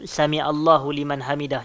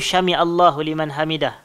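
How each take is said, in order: First: The first word begins with a plain 's' sound. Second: The first word begins with an 'sh' sound.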